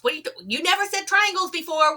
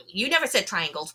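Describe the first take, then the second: First: Much higher, fast, alarmed repeat; retelling the call, suddenly high and quick; shocked disbelief. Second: Said in the usual way. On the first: Retold or imitated. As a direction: jump up in pitch, rushing in disbelief. Startled retort in retold call.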